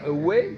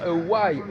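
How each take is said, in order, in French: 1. La dernière voyelle sonne comme 'ay'. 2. La dernière voyelle sonne comme 'eye'. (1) "au lieu de dire away" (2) "ils devraient dire a why"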